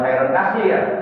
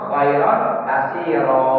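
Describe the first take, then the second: First: The last word ends in -ir, no final vowel. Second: The last word ends in -iro, a long vowel. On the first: The speaker calls it wrong. "Jangan khairon kasir" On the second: The speaker calls it right. "Kalau baca di wakaf"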